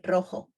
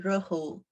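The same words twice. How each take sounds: First: The vowels are short and crisp. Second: The vowels are drawn out and long. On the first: The speaker calls it right. "short. The same happen with rojo" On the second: The speaker calls it wrong. "Don't say rojo"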